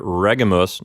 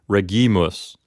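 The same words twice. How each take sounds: First: The stress is on the first syllable. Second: The stress is on the second syllable. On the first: The speaker calls it right. "the accent moves back one syllable to reg, the first syllable" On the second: The speaker calls it wrong.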